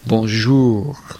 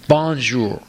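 First: The stress is on the second syllable. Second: The stress is on the first syllable. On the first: The speaker calls it right. "The second syllable is emphasized" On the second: The speaker calls it wrong. "you emphasize the first syllable"

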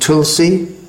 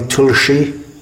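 First: It is said with the Hindi pronunciation. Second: It is said with the Bengali pronunciation. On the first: This is the form used in Hindi. "in Hindi it's pronounced Tulsi" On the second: This is the form used in Bengali songs. "or in Bengali Tulshi"

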